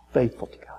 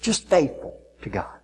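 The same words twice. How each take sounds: First: Soft hushed aside; whisper. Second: Said in the usual way. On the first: Real, not acted. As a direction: whisper it to yourself. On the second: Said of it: "said plainly before whispering".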